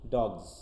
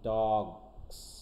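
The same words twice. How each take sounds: First: The word is said fast, ending in z. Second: The word ends in a forced s sound. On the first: "আর যদি আমরা দ্রুত বলতে চাই, স আসতেছে না" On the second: "স সাউন্ডটা কিন্তু খুব কষ্ট করে আনতে হচ্ছে"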